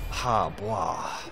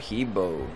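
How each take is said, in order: First: The name is said with a more authentic pronunciation. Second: The name is said in a plain English way. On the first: The speaker calls it right. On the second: The speaker calls it wrong.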